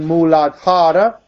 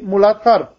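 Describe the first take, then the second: First: The word ends with a final a vowel. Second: The word ends without a final vowel. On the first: This is the Sanskrit pronunciation. "what would be the Sanskrit pronunciation" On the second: This is the Hindi pronunciation. "because the final A goes"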